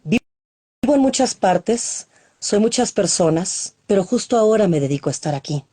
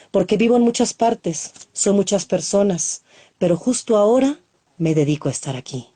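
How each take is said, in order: First: First line drawn out slowly; stretched opening of the poem. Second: Said in the usual way. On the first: Acted. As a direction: open the poem slowly, word by word. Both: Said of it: "este se llama Biografía Universal".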